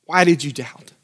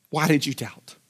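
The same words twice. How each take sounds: First: Said in the usual way. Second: "Why did you doubt?" said much softer and lower. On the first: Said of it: "Jesus's rebuke, said twice". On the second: Shown as a demonstration. Jesus gently repeating his question to Peter, much softer. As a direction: let the question fall to a near hush. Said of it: "repeated softer".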